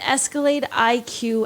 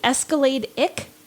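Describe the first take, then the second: First: The ending is spoken as two separate letters. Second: The ending is spoken as the single syllable 'ick'.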